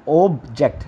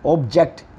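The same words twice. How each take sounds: First: "object" with "ऑब" firm and the rest light; "object" with "ऑब" hit; stress on OB. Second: "object" with "जेक्ट" hit and "ऑब" light; "object" as a verb, "जेक्ट" stressed; stress on JECT. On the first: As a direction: lean on "ऑब" in "object". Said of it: "ऑब, ऑब पे आप थोड़ा". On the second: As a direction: push the second syllable "जेक्ट". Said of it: "जेक्ट पे आपने थोड़ा जोर देना है". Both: Shown as a demonstration.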